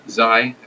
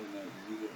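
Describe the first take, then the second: First: The vowel sounds like the word 'eye'. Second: The vowel sounds like the letter 'E'. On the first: The speaker calls it right. "Zai rhymes with I" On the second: The speaker calls it wrong. "not Z rhymes with E"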